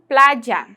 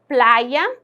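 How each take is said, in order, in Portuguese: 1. O som do y é dito como um j. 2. O som do y segue o espanhol peninsular. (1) "Com o dieísmo eu digo" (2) "pronunciado aí com espanhol europeu, peninsular"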